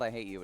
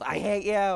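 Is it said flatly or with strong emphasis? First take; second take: flatly; strong emphasis. First: It is said flatly, without much force. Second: It is said loudly, with strong emphasis.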